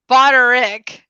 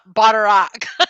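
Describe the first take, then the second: First: The last syllable sounds like 'rick'. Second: The last syllable sounds like 'rack'. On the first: The speaker calls it right. "It's Boderick" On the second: The speaker calls it wrong. "not Boderack"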